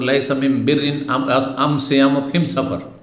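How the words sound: The article is said with an 'm' sound.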